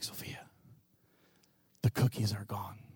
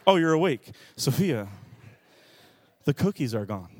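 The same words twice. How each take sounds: First: Very soft bedside whisper; hushed whisper. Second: Said in the usual way. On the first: Retold or imitated. Dad creeping to toddler's bed, whispering. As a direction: whisper it low to a sleeping child.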